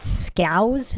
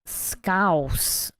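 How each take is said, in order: First: "Scouse" as a rising question, ending in a z sound; unsure pronunciation. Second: "Scouse" falling, ending in a hissed s; looked-up pronunciation. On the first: Asking chat how to pronounce the word, a questioning "Scouse" ending in z. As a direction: try "Scouse" tentatively, like "skowz" going up. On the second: Reading out the looked-up dialect name, a settled, falling "Scouse" ending in s. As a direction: say "Scouse" as a statement, like "skowss". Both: Real, not acted. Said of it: "how do you pronounce that".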